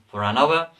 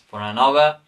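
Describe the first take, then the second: Both takes have the same delivery.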